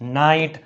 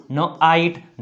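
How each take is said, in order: First: Said in the usual way. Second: ન આઈટ split into consonant, then vowel; teacher sounding out ન, then આઈટ; sounded out. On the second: Shown as a demonstration. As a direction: break ન આઈટ into two sounds, rising. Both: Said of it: "લખાય અથવા વંચાય છે".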